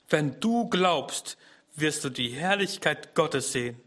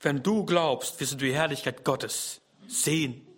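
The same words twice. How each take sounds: First: Very slow on wenn du glaubst, then easing; slow emphatic quote. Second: Said in the usual way. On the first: Shown as a demonstration. Preacher repeating Jesus' promise to listeners, slow emphasis. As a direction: let each word land slowly. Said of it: "repeated slowly for emphasis". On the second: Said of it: "Jesus spricht zu Martha".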